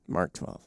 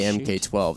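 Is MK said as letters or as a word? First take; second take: word; letters. First: MK is spoken as the single word Mark. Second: MK is spoken as two separate letters. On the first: The speaker calls it right. "I'll say it, so it's a Mark 12" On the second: The speaker calls it wrong. "if you say MK 12, then you're going to get made fun of"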